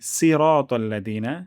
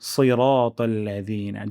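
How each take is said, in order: First: The first consonant is light and thin. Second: The first consonant is heavy and thick. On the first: The speaker calls it wrong. "যদি এখানে আমরা বলি ... লাহনি জালি হয়ে যাচ্ছে" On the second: The speaker calls it right. "আমরা সূরাতুল ফাতিহায় পড়ি"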